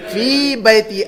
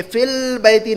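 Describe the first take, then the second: First: "फी बैती" with long fii, no L; "फी बैती" as two clean words, no lam; no article. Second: "फिल बैती" with short fil, L sounded; "फिल बैती" shown as the common slip with an added L; mistaken article. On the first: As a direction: say "फी बैती" as fii bayti, without al. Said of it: "अलिफ लाम नहीं लगाएंगे". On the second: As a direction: say "फिल बैती" as fil-bayti, joined by lam. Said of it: "नहीं लगाएंगे". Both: Shown as a demonstration.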